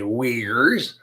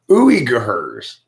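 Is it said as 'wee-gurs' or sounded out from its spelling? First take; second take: wee-gurs; spelled-out. First: It sounds like 'wee-gurs', two smooth syllables. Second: It is sounded out letter by letter from spelling. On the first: This is how the name is normally said. "That doesn't say Uyghurs" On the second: This is what the written spelling literally suggests. "That says Uyghurs. Totally different word"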